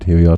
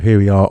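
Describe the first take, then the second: First: The voice sounds thinner and off to the side. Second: The voice sounds full and direct. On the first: "to the side" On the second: "on axis"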